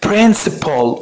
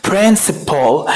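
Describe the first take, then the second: Both takes have the same delivery.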